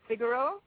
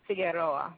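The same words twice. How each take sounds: First: Figaro, said the Jamaican way as FIG-a-ro; name said Figaro, Jamaican style; Jamaican pronunciation. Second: Figueroa, said the Spanish way as fee-geh-RO-ah; name said Figueroa, Spanish style; Spanish pronunciation. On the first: Guest corrects host on her name: Figaro, the Jamaican way. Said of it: "Let me just say that the name is, in Jamaica, it's pronounced". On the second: Guest shows the Spanish way: Figueroa, fee-geh-RO-ah. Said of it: "in the Spanish-speaking world, it's pronounced". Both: Shown as a demonstration.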